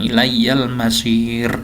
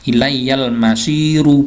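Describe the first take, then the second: First: The final r is held with no vowel. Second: The final r is followed by a u vowel. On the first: The speaker calls it right. "panjang, ro-nya dimatikan" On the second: The speaker calls it wrong. "bukan ilayyal masiru, bukan"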